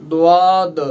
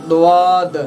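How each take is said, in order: No difference in how they are said.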